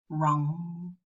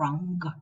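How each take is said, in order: First: It ends in the nasal with no g sound. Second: It ends in the nasal followed by a g sound. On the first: The speaker calls it right. "So we only pronounce the velar nasal" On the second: The speaker calls it wrong. "We don't say sing and rung"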